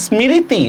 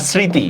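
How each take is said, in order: First: "স্মৃতি" with the ম voiced, as smi-ri-ti; sounded-out mo-phola. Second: "স্মৃতি" as sri-ti, no ম sound; silent mo-phola. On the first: Teacher offers learners the wrong choice, "স্মৃতি" with ম sounded. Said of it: "এটার উচ্চারণ কি". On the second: Teacher offers learners the right choice, "স্মৃতি" with silent ম. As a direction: say "স্মৃতি" in two beats, sri-ti. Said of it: "এগুলার কোনো উচ্চারণ হয় না". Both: Shown as a demonstration.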